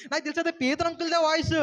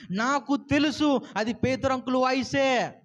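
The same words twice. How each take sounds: First: Put-on high, happy child bursting with voice; joyful. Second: Slow, firm, leaning on తెలుసు; firm insistence. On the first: Girl tells the elders joyfully, high and happy. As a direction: say it gladly, rising on voice. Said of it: "సంతోషంతో ఆనందంతో చెప్తుంది". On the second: Acted. Girl insists to the elders, slow and firm on తెలుసు. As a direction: insist slowly, hitting తెలుసు. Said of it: "గట్టిగా చెప్తుంది".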